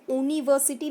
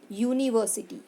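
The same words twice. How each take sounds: First: यूनिवर्सिटी said with a plain vowel oo start, no y sound; wrong pronunciation. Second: यूनिवर्सिटी starting with a clear y sound, yoo-niversity; correct pronunciation. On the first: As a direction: say यूनिवर्सिटी as oo-niversity, no y. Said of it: "हम इसको यूनिवर्सिटी नहीं बोलते हैं". (यूनिवर्सिटी बिना य ध्वनि के, ऊ से शुरू) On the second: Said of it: "य साउंड आता है". (यूनिवर्सिटी साफ़ य ध्वनि से शुरू करके) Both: Shown as a demonstration.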